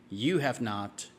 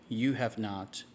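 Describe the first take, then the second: The two takes are said the same way.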